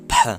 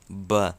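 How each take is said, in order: First: The consonant is a voiceless P sound. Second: The consonant is a voiced B sound. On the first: This is the Western Armenian pronunciation. "in Western Armenian, it's P" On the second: This is the Eastern Armenian pronunciation. "In Eastern Armenian, it's B"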